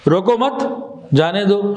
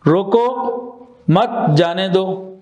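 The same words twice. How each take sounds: First: روکو مت rising, clear stop, then جانے دو; pause after مت. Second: روکو, clear stop, then slow مت جانے دو; pause after روکو. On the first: Teacher showing only the stop differs, pausing after روکو مت. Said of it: "صرف اسٹاپ کا فرق آ گیا". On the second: Teacher showing where to stop, pausing after روکو before مت جانے دو. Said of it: "یہاں پہ اسٹاپ کہاں لگایا ہم نے". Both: Shown as a demonstration.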